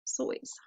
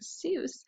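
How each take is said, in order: First: The name rhymes with voice. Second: The name rhymes with goose. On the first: The speaker calls it right. "it's actually supposed to rhyme with voice" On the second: The speaker calls it wrong. "I'm just so used to hearing Seuss"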